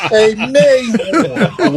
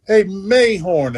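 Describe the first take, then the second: First: Exaggerated French Lick drawl, very slow and high; higher, long-drawn mock French Lick accent; Larry Bird. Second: Slow imitation of a French Lick drawl; mock French Lick accent, "Mayhorn" stretched; lightly imitated French Lick twang. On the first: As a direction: mimic the French Lick tone, dragging out "Mayhorn". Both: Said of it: "his French lick tone".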